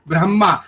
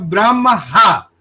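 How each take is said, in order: First: The m is full and the h is silent. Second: A full h syllable follows the m. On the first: The speaker calls it right. "हमें माँ आखिरी में पूरा सुनाई दे रहा है और ह साइलेंट सुनाई दे रहा है" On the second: The speaker calls it wrong. "अब इसको उल्टा कर दीजिए"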